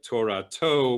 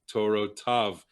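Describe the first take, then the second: First: The word ends with the syllable 'to'. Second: The word ends with the syllable 'tav'. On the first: This is the reading as it is written in the scroll. The speaker calls it wrong. "it looks like Torah to without the yud" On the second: This is the traditional corrected reading. The speaker calls it right. "but you should read it with the yud"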